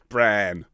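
The vowel is a long, open 'ah' sound. The speaker calls it right. "B-R-A-H-N, Bran"

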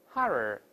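Open first vowel with a curled r at the end. "啊就好读多了……这个啊变成二，一勾舌头"

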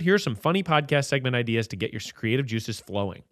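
It is read in a flat, robotic way. "You read it a little more robot-y"

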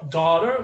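It is said with an American accent. "daughter with American pronunciation"

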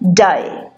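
The vowel is stretched, in an Australian accent. "if you listen to the Australian accent, the A gets a little stretched. So they probably pronounce it as die"

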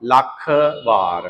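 The two parts are said as separate words. The speaker calls it right. "ਇਉਂ ਬੋਲਣਾ ਹੈ"

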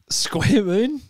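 It sounds doubtful and questioning. The speaker is unsure about the idea. The speaker calls it wrong. "don't say square moon with such, you know, ambiguity"

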